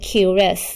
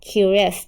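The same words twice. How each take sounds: The two takes are said the same way.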